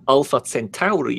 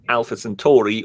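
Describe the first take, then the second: First: The name is said in a put-on pronunciation. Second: The name is said in a normal pronunciation.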